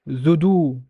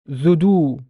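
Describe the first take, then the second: No difference in how they are said.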